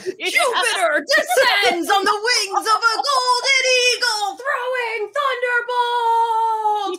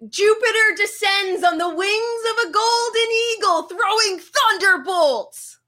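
First: It is said in a very dramatic way. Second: It is said in a less dramatic way.

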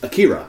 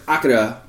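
First: It is said the American way. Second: It is said the Japanese way.

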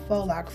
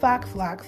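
First: The first word is said like 'foe'. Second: The first word is said like 'fox'. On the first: The speaker calls it right. "faux locks is the correct pronunciation" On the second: The speaker calls it wrong. "I don't know why y'all think foxes wear locks"

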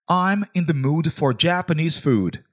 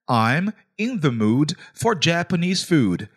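First: It is said at normal speed. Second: It is said more slowly.

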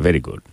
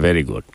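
Both takes have the same delivery.

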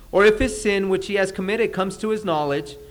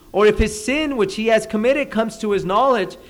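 The two takes are said the same way.

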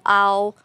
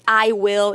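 First: The words are contracted into one syllable. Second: Both words are said in full. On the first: "eu digo I'll" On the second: "ao invés de dizer I will"

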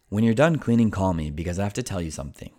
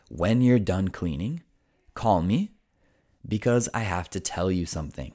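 First: It is said fast. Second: It is said slowly.

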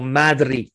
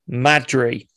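First: The name is said with a Spanish accent. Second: The name is said with a plain English accent.

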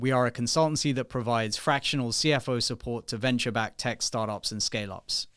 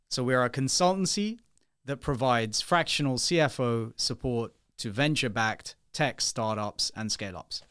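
First: It is said at normal speed. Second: It is said slowly.

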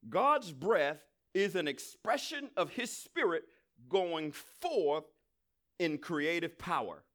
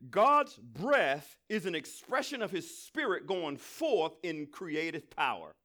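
First: It is said more slowly. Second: It is said at normal speed.

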